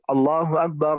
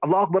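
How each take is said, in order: First: The phrase is said slowly and drawn out. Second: The phrase is said quickly and rushed. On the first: The speaker calls it right. "you pull it like you know, you say Allahu Akbar, Allahu Akbar, like that" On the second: The speaker calls it wrong. "if you hasten the azan, like you, sometimes"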